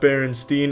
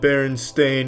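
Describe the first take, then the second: First: The last syllable sounds like 'steen'. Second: The last syllable sounds like 'stain'. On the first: The speaker calls it wrong. "not Berenstein. ... they all want to pronounce it Steen" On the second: The speaker calls it right. "It's always been Berenstain"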